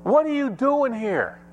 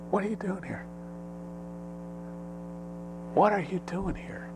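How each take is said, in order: First: High, insistent preaching question; demanding pulpit question; preacher's challenge. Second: Soft, high, gentle question; hushed, delicate voice from heaven; still small voice. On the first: Real, not acted. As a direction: challenge the congregation in a raised pitch. Preacher's challenge, later echoed as small voice. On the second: Acted. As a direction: ask it very softly, like God's quiet voice. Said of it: "that still small voice is usually saying the same thing".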